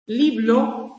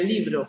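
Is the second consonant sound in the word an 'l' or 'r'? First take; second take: l; r. First: The word is said with an l sound. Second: The word is said with an r sound. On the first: A young child's simplified pronunciation. The speaker calls it wrong. "Liblo, en vez de libro" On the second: The standard adult pronunciation. The speaker calls it right. "en vez de libro"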